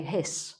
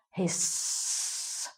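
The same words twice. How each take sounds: First: Said in the usual way. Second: Long, soft, sustained hiss; imitated snake hiss. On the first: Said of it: "normally you just say". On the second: Shown as a demonstration. Teacher imitating a snake for learners, long hiss. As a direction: stretch the S out like a snake. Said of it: "if you're going to imitate the thing".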